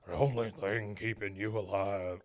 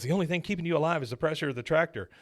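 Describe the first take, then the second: First: Low quiet gruff voice; the wrong voice, mumbled low; wrong character voice. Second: Fast, a touch higher; corrected character voice. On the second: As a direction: rattle it off as the son. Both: Shown as a demonstration. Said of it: "I did the wrong voice".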